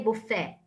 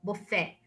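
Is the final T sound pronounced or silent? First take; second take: silent; silent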